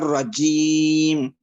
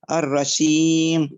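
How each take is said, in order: First: The middle consonant is a firm j sound. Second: The middle consonant is a soft sh sound. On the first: The speaker calls it right. "وليس الرجيم" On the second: The speaker calls it wrong. "من الأخطاء ... بسبب عدم الشدة"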